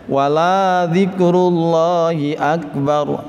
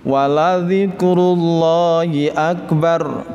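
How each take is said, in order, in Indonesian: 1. Vokal dalam 'la' dibaca panjang. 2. Vokal dalam 'la' pendek. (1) "la-nya dibaca panjang" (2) "mestinya dibaca pendek"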